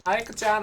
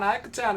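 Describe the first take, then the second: First: Put-on high pleading kid voice calling Ayako-chan; sweet higher child calling out; childlike call. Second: Higher, falling sing-song Ayako-chan; wheedling little kid calling out; childlike call. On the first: Child calls to big sister. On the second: Acted. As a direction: call her again, sweeter and higher. Child calls again, sweeter.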